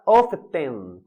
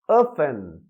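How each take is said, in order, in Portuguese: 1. A palavra é dita com som de T. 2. A palavra é dita sem som de T. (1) "Então não pode falar often" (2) "Não tem esse som de T"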